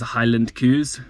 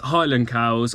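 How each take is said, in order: First: It is said in a put-on Scottish accent. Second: It is said in the speaker's usual accent.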